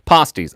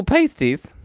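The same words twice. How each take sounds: First: "Pasties" said PAH-steez; broad-A pronunciation. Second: "pasties" said PAY-steez; long "ay" in the first syllable of "pasties"; long-A pronunciation. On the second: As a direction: say "pasties" with the vowel of "paste". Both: Shown as a demonstration. Saying the word two ways.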